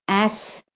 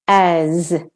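First: "ass" softer, with hissed s; teacher's clear "ass" with final s; voiceless S ending. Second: "as" long, with buzzing z; teacher's drawn-out "as" with final z; voiced Z ending. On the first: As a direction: end "ass" on an unvoiced s. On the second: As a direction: end "as" on a voiced z. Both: Shown as a demonstration. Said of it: "to hear the difference".

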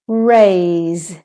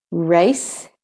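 First: "raise" long, with buzzing z; teacher's drawn-out "raise" with final z; voiced Z ending. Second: "race" rising, with hissed s; teacher's clear "race" with final s; voiceless S ending. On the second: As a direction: end "race" on an unvoiced s. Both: Shown as a demonstration. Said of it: "when the S says S or the S says Z".

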